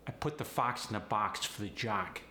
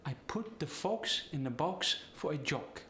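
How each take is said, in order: First: Said in the usual way. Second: Higher Polish accent, long O's. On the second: Shown as a demonstration. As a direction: Polish accent with rounded O in each word. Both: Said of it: "The short O gets the long O sound".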